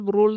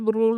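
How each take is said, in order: The two takes are said the same way.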